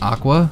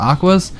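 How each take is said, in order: First: The name ends in a vowel, without s. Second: The name ends with an s sound. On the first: The speaker calls it right. "the group's name was actually pronounced Aqua" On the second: The speaker calls it wrong. "as opposed to Aquas"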